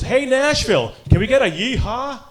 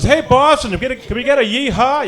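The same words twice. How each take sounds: First: High, rousing arena announcer; PA announcer imitation. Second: High, loud hype-man call; rally the stands like an arena announcer; PA announcer imitation. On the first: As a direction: work the crowd like a hockey announcer. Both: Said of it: "the P A announcer goes".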